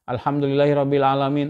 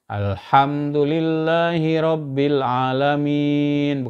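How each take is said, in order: First: It is recited quickly with short clipped sounds. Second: It is recited slowly with long drawn-out sounds.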